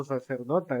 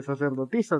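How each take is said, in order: First: "sacerdota", ending in -ota; mispronounced word. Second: "sacerdotisa", ending in -isa; correct form. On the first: Retold or imitated. Co-host quoting a girl's wrong word, softly mispronounced "sacerdota". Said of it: "eso no existe, sacerdotisa se dice". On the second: Shown as a demonstration. Co-host correcting a girl's word, "sacerdotisa" with -isa ending. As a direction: give the proper "sacerdotisa" with its -tisa ending. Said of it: "sacerdotisa se dice".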